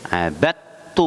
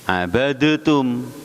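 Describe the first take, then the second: First: The d merges into a doubled t. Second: The d is pronounced separately before the t. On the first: This is how it is read aloud. "dibaca abattum, masuk dalnya idgham ke ta" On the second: This is how it is written. "Abadatum tulisannya"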